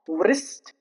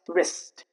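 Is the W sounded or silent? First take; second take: sounded; silent. First: The W is sounded before the R. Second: The W is silent before the R. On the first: The speaker calls it wrong. "it's not wrist" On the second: The speaker calls it right. "it's just wrist"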